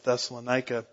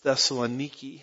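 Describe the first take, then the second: First: The name ends with an 'ica' sound. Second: The name ends with an 'iki' sound. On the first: This is the familiar outsider form. The speaker calls it wrong. "I'm just going back to Thessalonica" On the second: This is how local people say it. The speaker calls it right. "They pronounce it as Thessaloniki"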